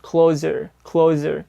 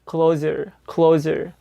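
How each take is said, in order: The two takes are said the same way.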